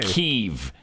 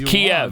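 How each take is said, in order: First: The name is said the newly adopted way. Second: The name is said the long-familiar way. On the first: This is the name as it has recently been switched to. The speaker calls it wrong. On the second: This is the name as people have always said it. The speaker calls it right. "that's the Russian pronunciation, but that's how we've said it our whole lives"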